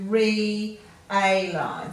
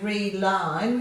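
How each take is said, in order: First: The first two vowels are said as separate sounds. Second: The first two vowels merge into one sound. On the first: The speaker calls it right. "we're going to split that" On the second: The speaker calls it wrong. "we're not going to combine that to say re-line"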